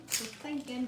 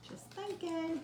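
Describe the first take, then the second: First: Said in the usual way. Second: High sing-song. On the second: Shown as a demonstration.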